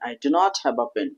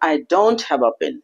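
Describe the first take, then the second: First: Do not is said as two full words. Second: Do not is shortened to one syllable, don't.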